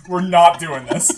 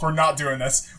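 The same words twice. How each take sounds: First: Louder, laughing insistence; louder laughing repeat. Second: Said in the usual way. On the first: Real, not acted. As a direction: say it again louder through a laugh.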